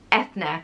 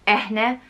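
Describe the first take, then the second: First: The middle consonant is a th sound. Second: The middle consonant is an h sound. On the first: "or Ethne" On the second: "or Eh-ne"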